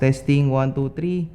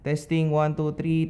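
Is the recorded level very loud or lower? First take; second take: very loud; lower. First: The recording level is very loud. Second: The recording level is turned down lower. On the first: "Camera camera audio at sixteen. Ewan ko super lakas" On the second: "baba pa natin"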